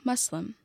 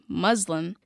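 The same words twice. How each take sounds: First: The word is said the careful appropriate way. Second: The word is said the common media way. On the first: The speaker calls it right. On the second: The speaker calls it wrong.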